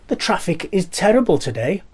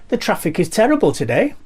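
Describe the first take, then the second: No difference in how they are said.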